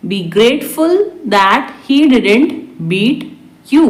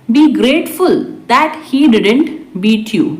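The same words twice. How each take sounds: First: Spaced out for learners. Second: Said in the usual way. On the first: Shown as a demonstration. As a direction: pause before the last word. Teacher repeats translation word by word. (धीरे-धीरे, रुककर)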